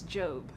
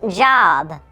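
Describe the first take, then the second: First: "Job" said with a long o, like "jobe"; pronunciation. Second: "job" said like the word for work, short o; pronunciation. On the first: [name] correcting [name], "Job" with a long o. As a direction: say "Job" rhyming with robe. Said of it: "I'm pretty sure it's Job". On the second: [name] correcting [name], "job" with a short o. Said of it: "It's pronounced job". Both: Shown as a demonstration.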